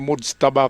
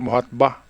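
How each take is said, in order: First: The middle consonant is a j sound. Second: The middle consonant is an h sound. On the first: This is how the news channels say it. The speaker calls it right. "yan ay Mujtaba Kamini, hindi Muhatba" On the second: Someone else pronounced it this way. The speaker calls it wrong. "Sabi ng reporter, Muhatba. Ngayon ko lang narinig yung pronunciation na yan"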